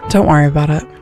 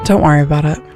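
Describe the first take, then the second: First: It is said in a disappointed tone. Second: The same.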